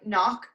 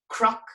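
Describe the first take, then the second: First: It starts with a plain n, k silent. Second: It starts with a c followed by r. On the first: It follows English spelling rules. "a massive mispronunciation" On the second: It is how Ulster speakers say it. "In Ulster, that's pronounced like a C R sound"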